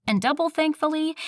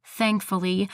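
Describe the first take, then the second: First: "double" pitched up high and hit; stress on double. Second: Said in the usual way. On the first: Shown as a demonstration. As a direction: punch "double" in "And double thankfully".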